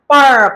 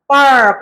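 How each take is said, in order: The two takes are said the same way.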